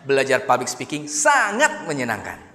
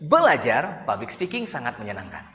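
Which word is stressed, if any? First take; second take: sangat; belajar. First: The word sangat is stressed. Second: The word belajar is stressed. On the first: "Atau dikata sangatnya" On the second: "kita tekan di bagian belajarnya"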